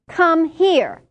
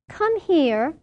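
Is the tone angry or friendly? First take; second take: angry; friendly. First: It is said in a sharp, angry tone. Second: It is said in a warm, friendly tone.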